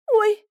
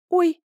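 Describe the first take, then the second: First: "Ой" cried much higher and louder; alarmed cry. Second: A startled higher, louder "Ой"; frightened gasp. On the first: Wife as her waters break, alarmed cry. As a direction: squeal "Ой" in real alarm. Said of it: "произнесла она ещё раз". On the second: Wife reaching up, suddenly startled. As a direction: freeze on a scared "Ой". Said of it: "замерла испуганно". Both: A narrator's reading.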